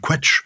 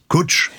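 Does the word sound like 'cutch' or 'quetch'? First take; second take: quetch; cutch. First: The word is said as 'quetch'. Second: The word is said as 'cutch'. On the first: The speaker calls it wrong. "I would have pronounced the Welsh word quetch" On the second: The speaker calls it right. "it's definitely cutch. To rhyme with butch"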